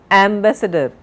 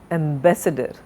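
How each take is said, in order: First: "ambassador" as AM-buh-suh-dur, front-stressed; wrong stress, first syllable. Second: "ambassador" as am-BASS-uh-dur, falling away; stress on second syllable. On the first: Teacher showing what we don't say, "ambassador" stressed on AM. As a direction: punch the "am" of "ambassador". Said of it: "We don't say ambassador". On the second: Teacher correcting the error, "ambassador" stressed on BASS. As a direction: keep "am" light and hit "bass" in "ambassador". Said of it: "second stre-, second syllable". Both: Shown as a demonstration.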